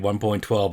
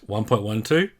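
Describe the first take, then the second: First: The part after the point is one number. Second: The digits after the point are read separately. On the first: The speaker calls it wrong. "You'll note I don't say" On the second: The speaker calls it right. "It's correctly pronounced"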